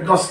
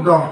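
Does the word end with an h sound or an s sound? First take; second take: s sound; h sound. First: The word ends with an s sound. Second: The word ends with an h sound. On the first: The speaker calls it wrong. "ভুল কথা। ... হটোত চ সোমাই দিয়ে দেখোন" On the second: The speaker calls it right. "দহহে"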